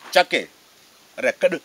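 The first word begins with a 'ch' sound. This is how the group in Guinea says it. "Eux, ils disent Tchake Rekadi"

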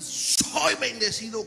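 It sounds confident and certain.

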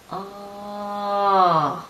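The pitch glides downward. "Це падіння звука"

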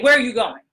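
It sounds firm and authoritative.

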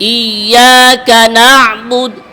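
The break comes after the whole word 'iyyaka'. The speaker calls it right. "ইয়া কা আলাদা"

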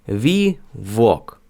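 The w is pronounced like a Ukrainian v. The speaker calls it wrong. "Ми би прочитали ці два слова як"

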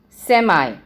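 It is said in an American accent. "In American English, we say"

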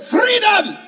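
It is shouted like Braveheart's battle cry.

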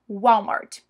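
It is said with an English pronunciation. This is how people say it abroad. "mas quando você estiver lá fora"

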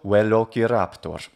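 It is said with classical Latin pronunciation. "and classical"

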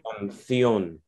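The c is said with a th sound. This is the way of saying it in Spain. "they'll say canción with a th sound"

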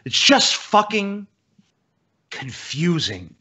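'Fucking' is heavily stressed, with a short pause.

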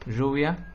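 The word begins with a voiced zh sound. This is how it is said in the Río de la Plata region. "lo pronunciamos con un sonido palatal, fricativo sonoro"

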